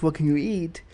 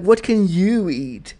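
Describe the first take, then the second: First: Said in the usual way. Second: Slow "what can YOU eat"; imitated othering question with "you" singled out; stress on you. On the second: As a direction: draw out and punch "you". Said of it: "how you ask that question".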